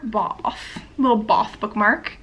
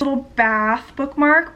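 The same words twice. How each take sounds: First: "bath" with a long, rounded British "ah". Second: Said in the usual way. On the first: Shown as a demonstration. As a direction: say "bath" as "bahth", playing British. Repeats bath in British pronunciation.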